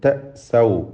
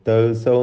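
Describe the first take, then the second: First: A clear glottal stop is made in the middle. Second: The middle glottal stop is dropped and smoothed over. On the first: The speaker calls it right. "ഹംസ ഷദീദായ ഹർഫാണ്" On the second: The speaker calls it wrong. "തൗസൗ എന്ന് പറയും, അങ്ങനെ പറയരുത്"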